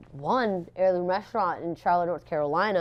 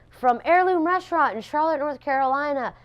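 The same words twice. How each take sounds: First: Said in the usual way. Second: High, louder ceremony announcer voice; imitating the announcer. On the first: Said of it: "I was like". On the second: Presenter reading out the winner, imitated announcer voice. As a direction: announce it like a host on stage. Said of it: "she goes".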